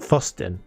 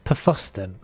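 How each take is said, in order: First: The word begins with a plain f sound. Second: The word begins with a puffed pf sound. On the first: The speaker calls it wrong. "it's not Fosten" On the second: The speaker calls it right. "So you actually say the puff"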